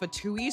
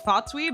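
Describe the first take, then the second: First: The name is said the usual way. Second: The name is said in an altered way. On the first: This is what the group is normally called. "I don't like how it's called fatui" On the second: This is a personal version that sounds cooler. "so I call it fatui because it sounds cooler"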